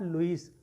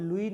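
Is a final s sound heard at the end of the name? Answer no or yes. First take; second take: yes; no. First: The name ends with an audible s sound. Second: The name ends in a vowel, no s sound. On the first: The speaker calls it wrong. "Not लुइस" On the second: The speaker calls it right. "It is called लुई"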